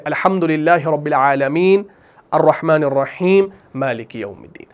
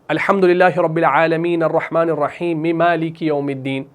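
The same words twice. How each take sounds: First: The verses are separated by pauses between them. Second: The verses are run together without pauses.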